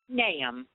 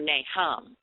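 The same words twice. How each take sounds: First: The h sound in the middle is silent. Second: The h sound in the middle is pronounced. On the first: The speaker calls it right. "the H is silent. And the correct pronunciation is Nahum" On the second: The speaker calls it wrong. "It looks like it should be pronounced Nahum"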